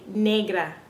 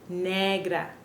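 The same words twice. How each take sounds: First: The vowel is a gliding 'ay' sound. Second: The vowel is a short, pure 'eh' sound. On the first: The speaker calls it wrong. "a lot of people say negra" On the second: The speaker calls it right. "but it's really negra"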